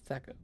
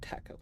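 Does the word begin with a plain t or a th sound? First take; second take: th; plain t. First: The word begins with a th sound. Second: The word begins with a plain t sound. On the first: The speaker calls it right. "Thaco, not taco" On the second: The speaker calls it wrong. "not taco"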